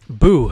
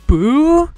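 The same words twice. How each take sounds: First: The voice falls at the end. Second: The voice rises at the end.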